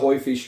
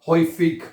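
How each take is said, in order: First: The word ends with a soft 'sh' sound. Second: The word ends with a hard 'k' sound. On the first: "इसको आप शीन की आवाज भी प्रोनाउंस कर सकते हैं" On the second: "गाफ की आवाज भी पड़ी जाती है"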